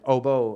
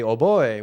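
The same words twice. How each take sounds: First: The word is said with an English pronunciation. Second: The word is said with a Spanish pronunciation. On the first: "but like oboe" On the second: "which is how in Spanish"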